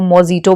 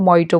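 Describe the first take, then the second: First: The word is said with a j sound. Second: The word is said without a j sound. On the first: This follows the spelling. The speaker calls it wrong. "कुछ उसको मोजिटो भी बोलते हैं, but that's उसके spelling में आप ऐसे बोल सकते हो" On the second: This is how people actually say it. The speaker calls it right. "पर उसको मोइटो बोलते हैं"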